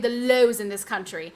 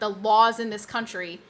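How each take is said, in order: First: The vowel in laws sounds like oh. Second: The vowel in laws sounds like aw. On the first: The speaker calls it wrong. "she would always say" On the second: The speaker calls it right. "instead of saying law, law, like the laws in this country"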